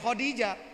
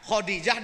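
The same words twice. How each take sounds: First: The name is said with the Egyptian pronunciation. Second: The name is said without the Egyptian pronunciation. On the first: The speaker calls it right. "orang Mesir juga ... dibacanya Khadijah" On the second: The speaker calls it wrong. "tidak dibaca Khadijah"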